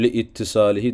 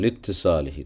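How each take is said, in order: First: A glottal stop separates 'li' from 'ittisalihi'. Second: 'Li' runs straight into 'ttisalihi' without a break. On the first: The speaker calls it wrong. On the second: The speaker calls it right.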